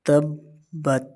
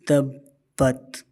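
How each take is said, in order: First: Said in the usual way. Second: تبت with the doubled ب held and pressed hard, said very slowly; correct tajweed. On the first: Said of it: "تبت نہیں پڑھنا". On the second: Shown as a demonstration. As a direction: lean on the shadda in تبت and hold the ب. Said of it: "اس طرح اس کو پڑھنا ہے". (تبت میں ب کو ٹھہر کر سختی سے ادا کریں)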